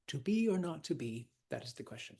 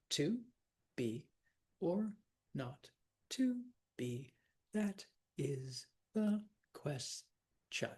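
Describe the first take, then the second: First: Said in the usual way. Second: "To be or not to be. That is the question." one syllable at a time, slowly; very slow, a separate beat on every syllable, "ques-tion" split in two; counting syllables. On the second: Shown as a demonstration. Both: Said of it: "Let's count 'em".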